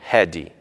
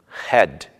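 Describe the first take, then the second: First: An extra 'ee' vowel follows the final consonant. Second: The word ends on its final consonant sound. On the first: The speaker calls it wrong. "e não" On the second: The speaker calls it right. "e nem em palavras terminadas em consoantes"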